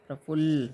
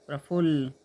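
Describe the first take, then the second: No difference in how they are said.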